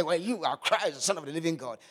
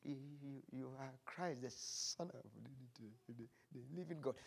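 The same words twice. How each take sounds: First: Loud, confident proclamation, no stammer; bold declaration. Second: Much softer stammered answer, halting on every word; feeble, sheepish repeat. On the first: Pretend. Peter declaring to Jesus, imagined loud and bold. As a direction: proclaim it boldly to the whole room. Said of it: "never think Peter was so bold to say". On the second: Acted. Peter repeating his answer to Jesus, still feeble and sheepish. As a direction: repeat it, still too timid to say it out. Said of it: "with a very feeble, sheepish voice".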